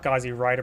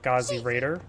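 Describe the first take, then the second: First: The second word has the vowel of 'ride'. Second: The second word has the vowel of 'raid'. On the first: The speaker calls it wrong. "or not Gauzy Rider" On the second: The speaker calls it right. "but Gauzy Raider"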